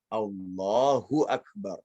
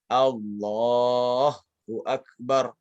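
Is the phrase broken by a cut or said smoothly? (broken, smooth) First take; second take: smooth; broken. First: The phrase flows on without any break inside. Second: The phrase is cut off with a break inside. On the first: The speaker calls it right. "Karena harusnya" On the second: The speaker calls it wrong. "Agak yang salah tuh baca seperti ini. ... Diputus"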